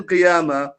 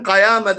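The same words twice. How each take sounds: First: "Qiyama" with an I vowel in the first syllable; Qiyama pronunciation. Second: "Qayama" with an A vowel in the first syllable; Qayama pronunciation. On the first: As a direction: say "Qiyama", opening on qi-. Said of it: "then Qiyama". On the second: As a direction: say "Qayama", opening on qa-. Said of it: "he said one time Qayama". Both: Retold or imitated.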